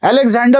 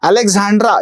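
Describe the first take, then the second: First: The name ends with a 'der' sound. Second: The name ends with a 'dra' sound. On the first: The speaker calls it wrong. "व्यक्तीचं नाव म्हटलं बाबा पहिले नीट उच्चार करायला शिक" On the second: The speaker calls it right. "ह्या रत्नाचा उच्चारच करता येत नाही"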